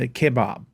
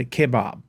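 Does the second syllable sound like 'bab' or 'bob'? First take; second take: bab; bab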